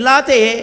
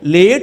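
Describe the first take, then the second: First: It is said 'laate', ending in a vowel. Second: It is said as English 'late', ending in T. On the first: The speaker calls it wrong. "ఎల్ఏట్ లాతే" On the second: The speaker calls it right. "లేట్ అన్నదాన్ని అలా రాశారండి"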